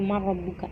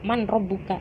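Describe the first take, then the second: First: The n merges into the r, without nasalization. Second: The n is pronounced clearly before the r.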